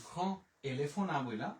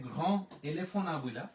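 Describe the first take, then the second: The two takes are said the same way.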